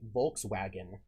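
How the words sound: The word is pronounced the English way. "you would say Volkswagen in English"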